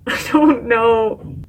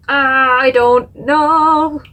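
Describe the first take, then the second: First: Drawn-out half-laughing whimper. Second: Very drawn-out, loud wail of indecision; anguished wail. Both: Real, not acted. Torn between two words.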